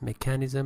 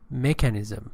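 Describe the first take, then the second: First: The stress is on a later syllable. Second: The stress is on the first syllable. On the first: The speaker calls it wrong. "You said defense mechanism" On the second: The speaker calls it right. "first syllable"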